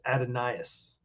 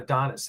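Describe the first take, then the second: First: The name is said with four syllables. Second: The name is said with three syllables. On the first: The speaker calls it right. "it's Adonias" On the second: The speaker calls it wrong. "actually not Adonis"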